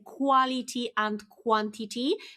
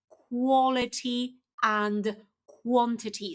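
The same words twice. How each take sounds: First: The first syllables use a 'kwa' vowel. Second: The first syllables use a 'kwo' vowel. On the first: The speaker calls it wrong. "very often you say quality and quantity" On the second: The speaker calls it right. "So not qua, but quo"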